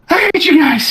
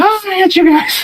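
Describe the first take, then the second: First: High, breathless whiny complaint; out-of-breath goblin whine. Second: Squeaky mock complaint, much higher; high whiny imitation. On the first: Acted. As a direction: gasp it out, fed up and high. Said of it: "out of breath Baril's like". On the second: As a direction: parrot the whine in a squeaky voice. Player echoes Baril's whine.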